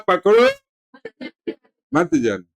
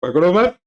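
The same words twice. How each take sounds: First: पकड़ो high and rising, long pause, then मत जाने; pause after पकड़ो. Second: पकड़ो मत as one phrase, sharply rising; high pitch, no break between पकड़ो and मत; मत joined to पकड़ो. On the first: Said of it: "मैंने कहा था". (पकड़ो पर रुककर फिर मत जाने) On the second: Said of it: "इसने बात को आगे कहा". (पकड़ो मत बिना रुके, चढ़ते सुर में) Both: Retold or imitated.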